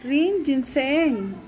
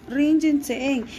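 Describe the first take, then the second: First: Rin Jintseen said slowly, carefully; slow model repeat. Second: Said in the usual way. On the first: Shown as a demonstration. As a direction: stretch out Rin Jintseen for learners. (Rin Jintseen lento y claro) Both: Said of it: "pongan atención en la pronunciación".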